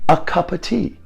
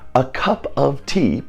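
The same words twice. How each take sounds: First: The small words are reduced to schwa. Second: The small words have full vowels.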